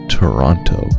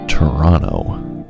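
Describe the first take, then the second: First: The second T is clearly pronounced. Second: The second T is left silent. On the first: This is not how people who live there say it. The speaker calls it wrong. "not Toronto" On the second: This is how people who live there say it. The speaker calls it right. "we don't actually pronounce the second T in the name of our city"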